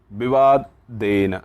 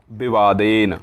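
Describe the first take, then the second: First: "विवादेन" drawn out syllable by syllable; slow spelled-out word. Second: Said in the usual way. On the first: Shown as a demonstration. Teacher slowing "विवादेन" down for the class. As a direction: stretch "विवादेन" so students catch every syllable.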